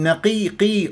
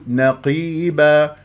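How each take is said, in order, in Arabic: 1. صوت القاف رقيق وخفيف. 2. صوت القاف ثقيل وممتلئ. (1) "ما أقول نقيقي أرققها" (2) "فأقول نقيبا"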